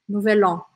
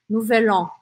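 No difference in how they are said.

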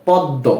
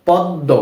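The two takes are said the same way.

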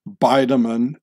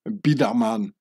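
First: The name is said with English pronunciation. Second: The name is said with Swiss German pronunciation.

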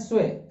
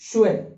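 First: The word begins with 's' and sounds like 'sweh'. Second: The word begins with 'sh' and ends in 'eh'. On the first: The speaker calls it wrong. "कई इसको पढ़ते हैं स्वे, जो कि 100% गलत है" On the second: The speaker calls it right. "That is शुए"

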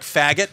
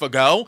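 First: The name ends with a 't' sound. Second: The name ends in an 'o' vowel. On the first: The speaker calls it wrong. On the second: The speaker calls it right.

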